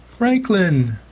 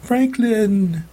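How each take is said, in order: First: High, desperate cry of a name. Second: High, drawn-out desperate call; crying out. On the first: Mom crying out to her husband for help. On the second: Mom crying to her husband while dragged out. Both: A narrator's reading. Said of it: "she cried".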